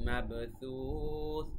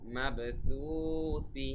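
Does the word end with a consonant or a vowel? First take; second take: consonant; vowel. First: The word is said as a stop, clipped short. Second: The word is read on without stopping.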